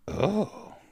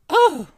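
First: An old-lady voice sounding jealous. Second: An old-lady voice sounding excited.

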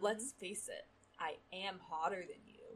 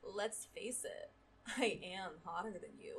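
First: It is said flatly, without expression. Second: It is said arrogantly, with a smirk.

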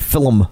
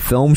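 First: The word is said the regional way. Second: The word is said the standard way. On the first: This is how a family member said it. "she would say film" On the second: This is the usual way to say it. "instead of film"

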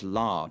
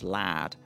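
First: The word is said with a long ar vowel. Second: The word is said with a short a vowel. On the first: This is the speaker's own pronunciation. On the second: This is how it is said in Yorkshire.

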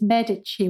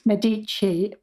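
First: The stress is on the first syllable. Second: The stress is not on the first syllable. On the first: This is how it is said in Italian. "the Italian pronunciation is Medici with the stress on the first syllable" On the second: This is how English speakers often say it. "English speakers will often say Medici"

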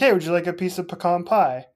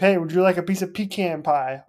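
First: Pecan is said the softer way, unlike toucan. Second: Pecan is said the harsher way, like toucan. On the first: The dessert sounds appealing. The speaker calls it right. "pecan sounds a lot more inviting" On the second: The speaker sounds like an outsider. The speaker calls it wrong. "I feel like I'm like an alien there"

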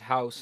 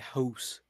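First: The word has a general American vowel. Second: The word has a raised Canadian vowel. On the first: "how everybody says house" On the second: "Canadians will say house"

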